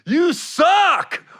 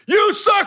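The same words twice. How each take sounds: First: Suck is given strong, heavy emphasis. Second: Suck is given only mild emphasis.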